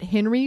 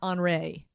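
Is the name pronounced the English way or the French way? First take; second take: English; French. First: The name is said as plain English Henry. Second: The name is said like a French name. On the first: "I was pronouncing it Henry" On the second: "pronounce it like a French name"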